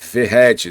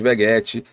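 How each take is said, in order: First: The middle consonant is an h-like r sound. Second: The middle consonant is a hard g sound. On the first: The speaker calls it right. "e é Verrete" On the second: The speaker calls it wrong. "Algumas pessoas, como eu, chamava de Veguete"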